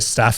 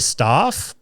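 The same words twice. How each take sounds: First: The word is pronounced the American way. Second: The word is pronounced the Australian way. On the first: "all the American podcasts I listen to, they say staph infection" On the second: "whenever I hear anyone in Australia, they say staph"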